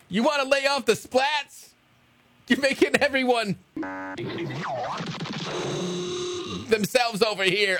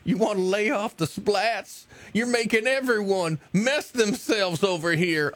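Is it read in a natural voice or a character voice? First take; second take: natural; character voice. First: It is read in a plain, natural voice. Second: It is read in Biscuits Tony's character voice.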